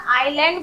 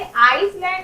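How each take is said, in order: First: "आइलैंड" gliding from ai straight to l; silent s. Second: "आइसलैंड" with a clear s in the middle; s wrongly sounded. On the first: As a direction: say "आइलैंड" with no s at all. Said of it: "आइलैंड बोलेंगे". ("आइलैंड" में स मौन) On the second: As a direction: misread it as "आइसलैंड", pronouncing the s. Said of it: "इसे आइसलैंड नहीं बोलेंगे". ("आइसलैंड" में स बोलकर गलत उच्चारण) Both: Shown as a demonstration.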